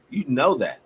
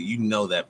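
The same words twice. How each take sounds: First: Insistent restatement; emphatic repeat. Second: Said in the usual way. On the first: Real, not acted. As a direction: drive "know" home the second time. Repeats the line with more force.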